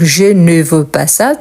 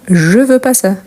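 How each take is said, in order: First: The word 'ne' is pronounced before the verb. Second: The word 'ne' is dropped before the verb. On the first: This is the complete form of the rule. "on ne prononce pas ne, mais on l'écrit" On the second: This is the casual spoken form. "quand on s'exprime à l'oral, parfois, on ne prononce pas ne"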